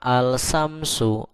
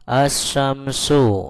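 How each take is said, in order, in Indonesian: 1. L dibaca dengan jelas sebelum sh. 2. L tidak dibaca, menyatu dengan sh yang digandakan. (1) "bukan al-samsu" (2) "dibaca asyamsu apabila wawunya dihilangkan"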